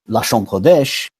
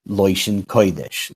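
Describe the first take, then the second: First: The first word has an 'ah' vowel. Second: The first word has an 'oy' vowel.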